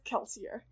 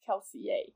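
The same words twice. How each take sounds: First: The name is said with English-like sounds. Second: The name is said with French-like sounds. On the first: This is how the author says it. "Brandon says Kelsier" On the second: This is how people in the story world say it. "is supposed to be pronounced Kelsier ... a like very French way"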